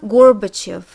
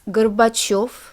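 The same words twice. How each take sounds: First: The stress falls before the final syllable. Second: The stress falls on the final syllable. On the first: The speaker calls it wrong. "So it's not Gorbachev" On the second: The speaker calls it right. "the ending becomes stressed"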